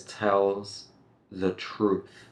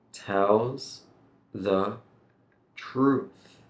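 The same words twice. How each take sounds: First: Said in the usual way. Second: Tells... the... truth, with pauses between words; slow, word by word. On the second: Shown as a demonstration. Teacher says go slowly here, slow separated words. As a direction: separate each word carefully. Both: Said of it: "You can go slowly here".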